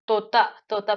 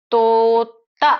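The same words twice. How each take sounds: First: Said in the usual way. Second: तोता as a long, loud "tooo", then "ta"; syllable by syllable. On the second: Shown as a demonstration. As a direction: hold the first syllable of तोता, then add the last. Teacher breaks word into sounds.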